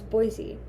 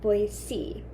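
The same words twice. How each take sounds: First: The middle consonant is a buzzing z sound. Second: The middle consonant is a hissing s sound. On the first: The speaker is not from the local area. "the correct way to say it while looking at the word" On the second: This is how local people say it. "like with a C, like the letter"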